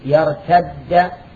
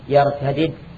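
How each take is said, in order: First: The two d sounds merge into one doubled d. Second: The two d sounds are pronounced separately.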